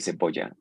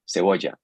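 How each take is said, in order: First: The lips close fully for the b sound. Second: The lips stay apart for the b sound. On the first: The speaker calls it wrong. "We don't say cebolla" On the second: The speaker calls it right. "you kind of round your lips, but you don't touch them together"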